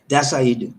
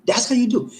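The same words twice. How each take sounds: First: Said in the usual way. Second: Playful high-pitched catchphrase; much higher repeat. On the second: Shown as a demonstration.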